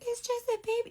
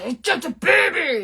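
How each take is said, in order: First: It is said in a soft, gentle tone. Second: It is said in a harsh, aggressive tone.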